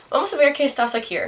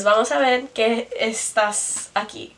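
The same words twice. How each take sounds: First: Higher, fast replay in a bad Spanish accent with an R stuck on "aquí"; quicker, higher second take in a bad Spanish accent. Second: Measured repeat of the phrase in a bad Spanish accent. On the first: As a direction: rattle it off quickly, adding an R to "aquí". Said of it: "add an R to aquí". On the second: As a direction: read back the Spanish steadily, still clumsy. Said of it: "in a really bad accent".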